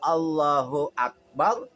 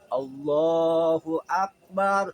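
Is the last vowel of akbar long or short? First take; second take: short; long. First: The last vowel of akbar is kept short. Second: The last vowel of akbar is drawn out long. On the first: God is great. The speaker calls it right. "Allah Maha besar" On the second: The phrase refers to a drum. The speaker calls it wrong. "kalau dipanjangin"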